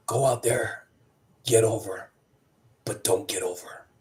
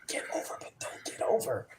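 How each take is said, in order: First: Measured instruction. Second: Hushed, whispered repeat to oneself; puzzled whisper. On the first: Agent's instruction retold, deliberate pauses. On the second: Rookie looking around, repeating agent's advice, whispering puzzled. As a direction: whisper it as if working out a riddle. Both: Retold or imitated.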